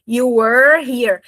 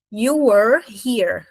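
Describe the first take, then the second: First: Were and here kept apart, slowly; slow, unlinked demo; slow, separated. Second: You were here drawn out slowly; very slow model sentence; slow demo. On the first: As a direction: stop between were and here. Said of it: "Repara como o were não junta". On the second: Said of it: "não falo esse é". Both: Shown as a demonstration.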